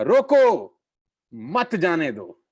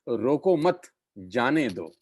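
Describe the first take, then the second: First: "रोको" shouted high, break, then "मत जाने दो" slower; pause after रोको. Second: "रोको मत" together, then "जाने दो"; pause after मत. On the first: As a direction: cry out रोको, stop, join मत to जाने दो. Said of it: "और सामने वाले ने कहा". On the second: Proverb recited in usual phrasing. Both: Shown as a demonstration.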